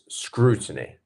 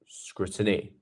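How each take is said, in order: First: The stress is on the first syllable. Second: The stress is not on the first syllable. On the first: The speaker calls it right. "we have our stressed first syllable" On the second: The speaker calls it wrong.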